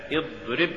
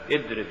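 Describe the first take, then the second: First: Said in the usual way. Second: اضرب with ض thinned to د; faulty reading of اضرب, plain د replacing ض; mispronounced ض. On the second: Shown as a demonstration. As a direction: say اضرب as "idrib" with a light d. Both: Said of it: "تقرأ لحنا".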